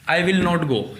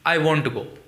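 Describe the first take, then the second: First: Will not is said as two full words. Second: Will not is contracted into one syllable, won't. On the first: "विल नॉट" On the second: "इस विल नॉट को बोलने में वॉन्ट बोला जाता है"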